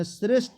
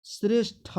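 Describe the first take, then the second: First: श्रेष्ठ ending in unbreathed ṭ; "sresht" for श्रेष्ठ, no final puff; wrong pronunciation. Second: श्रेष्ठ ending in breathed ṭha; "sresh-ṭha" for श्रेष्ठ; correct pronunciation. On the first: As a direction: close श्रेष्ठ on a bare t. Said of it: "ये गलत है". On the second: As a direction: puff of air closing श्रेष्ठ. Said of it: "ये जाकर हमारा सही है". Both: Shown as a demonstration.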